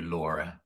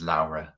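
First: Laura said as the common English name; first version of the name Laura, Anglicised; Laura pronounced one way. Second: Laura said as in her native language; second version of the name Laura, non-English vowel; Laura pronounced another way. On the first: Asking guest about her name, Laura in the English way. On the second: Asking guest about her name, Laura in the non-English way. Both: Shown as a demonstration. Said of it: "people call you Laura versus Laura".

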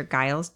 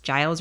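First: Giles with G as in "guy"; hard G in Giles. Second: Giles with a J sound; soft G in Giles. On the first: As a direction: hit a hard G to open Giles. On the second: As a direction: start Giles softly, as in "giant". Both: Shown as a demonstration. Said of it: "pronounced Giles or Giles".

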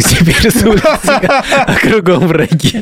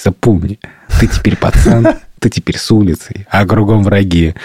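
First: High, slow meme chant; TikTok meme voice. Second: Lightly voiced gopnik tough; a hint of a street tough; russian street thug. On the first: Retold or imitated. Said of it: "типа". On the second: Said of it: "как гопник такой".

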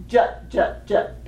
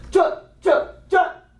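First: Said in the usual way. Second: Short, punched syllables pushed from the body; voiced from down here. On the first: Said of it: "But they say it". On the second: Shown as a demonstration. Teacher models the drum-line call, pushed from down below. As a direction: punch each syllable from down in the gut. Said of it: "like, from down here".

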